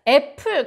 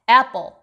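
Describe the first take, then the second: First: The p sound is plain and soft. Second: The p sound is tense and hard. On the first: The speaker calls it wrong. "애플 그대로 발음하면 못 알아들을 수도 있어요" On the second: The speaker calls it right. "피피가 된소리 발음이 나서"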